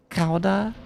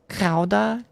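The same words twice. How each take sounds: No difference in how they are said.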